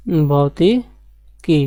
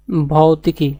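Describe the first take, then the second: First: Very drawn-out भौतिकी, each syllable stretched; slow dictation. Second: Said in the usual way. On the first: Shown as a demonstration. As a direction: spell out भौतिकी slowly for the class to write. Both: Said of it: "क्या है?".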